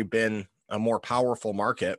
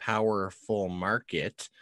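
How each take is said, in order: First: Said in the usual way. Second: Slow ironic "powerful market"; air quotes. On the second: Shown as a demonstration. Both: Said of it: "put my quotations up".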